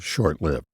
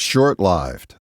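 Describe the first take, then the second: First: 'Lived' has a short i, like 'given'. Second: 'Lived' has a long i, like 'dived'. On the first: This is the form most people use. "even though most folks say short lived" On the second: This is the form a pronunciation handbook recommends. "that's how the N B C Handbook of Pronunciation recommends you say it"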